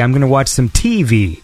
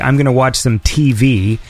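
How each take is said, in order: First: The stress in 'TV' falls on the T. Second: The stress in 'TV' falls on the V. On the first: "They put the emphasis on the T" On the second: "There's people who say"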